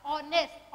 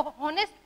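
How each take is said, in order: First: Softer ऑनेस्ट, starting on the O; silent H. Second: हॉनेस्ट with an audible H; wrong pronunciation. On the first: Teacher correcting the misreading, ऑनेस्ट with silent H. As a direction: drop the H from ऑनेस्ट. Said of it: "ये पढ़ा जाएगा". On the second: Teacher demonstrating the wrong reading, हॉनेस्ट with spoken H. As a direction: put the H into हॉनेस्ट. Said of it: "तो वो गलत हो जाएगी". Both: Shown as a demonstration.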